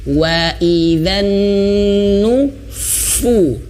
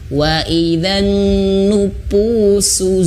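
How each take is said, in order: First: The letter is pronounced as a breathy f. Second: The letter is pronounced like a plain p. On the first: The speaker calls it right. "sini nyentuh fa fa ya" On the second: The speaker calls it wrong. "fa itu dibaca seperti huruf P biasa"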